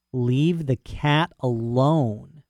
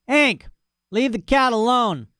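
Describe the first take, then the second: First: Drawn-out, deadpan repeat of the order; dog repeating the rancher's order slowly to himself; slow flat echo. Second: Yelling at the dog. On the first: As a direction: say it slowly as if mulling it over. Dog echoes the command. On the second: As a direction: holler across the yard. Rancher yells from porch. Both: Acted.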